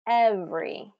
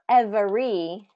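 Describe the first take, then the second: First: The word is said with only two syllables. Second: The word is said with three full syllables. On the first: The speaker calls it right. "but every" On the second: The speaker calls it wrong. "Not every"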